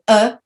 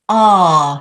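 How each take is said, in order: First: The vowel sound is short and neutral. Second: The vowel sound is long and open. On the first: The speaker calls it wrong. "or uh" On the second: The speaker calls it right. "is a long vowel sound"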